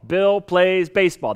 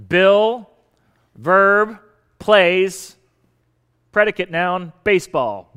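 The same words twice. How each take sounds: First: Bill plays baseball said slowly as one phrase; a teacher's slow, clear model sentence; slow whole sentence. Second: Bill, plays and baseball each set apart and louder; name each part with a pause between, Bill, then plays, then baseball; a teacher labelling each word of the sentence. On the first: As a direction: read the sentence through slowly, Bill stressed. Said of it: "That's the way we structure". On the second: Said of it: "you have the subject noun". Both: Shown as a demonstration.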